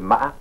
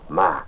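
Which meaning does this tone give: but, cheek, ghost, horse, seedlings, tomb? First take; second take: horse; but. First: It carries the tone that gives the meaning horse. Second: It carries the tone that gives the meaning but. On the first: It means horse. "le cheval" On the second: It means but. "c'est mais"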